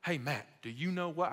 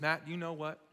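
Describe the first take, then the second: First: Put-on half-hearted country good old boy accent. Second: Said in the usual way. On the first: Preacher imitating his chicken-farmer counselor, shaky good old boy accent. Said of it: "someone with this accent".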